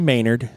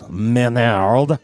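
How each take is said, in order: First: The name is said with an English accent. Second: The name is said with a French accent.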